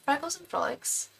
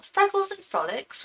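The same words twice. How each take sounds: First: A light mock British accent, higher. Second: A quick mock British accent, higher. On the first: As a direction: say the name like a Brit in her head. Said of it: "I read it with a British accent". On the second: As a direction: read the username like a Brit, playfully. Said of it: "Even your username sounds British".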